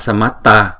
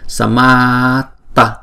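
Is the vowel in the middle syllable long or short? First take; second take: short; long. First: The middle vowel is short, one beat. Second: The middle vowel is long, two beats. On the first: The speaker calls it wrong. "chúng ta chỉ nghe một nhịp mà thôi" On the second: The speaker calls it right. "chúng ta phải đọc chữ ma này là hai nhịp"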